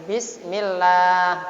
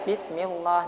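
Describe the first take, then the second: First: The L sound is light and thin. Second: The L sound is heavy and thick. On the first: The speaker calls it right. "Tarkib ya tipis. Seperti bismillah gitu" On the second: The speaker calls it wrong. "Tidak boleh bismillah"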